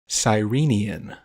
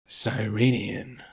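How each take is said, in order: First: It is said in a clear voice. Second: It is said in a gravelly voice.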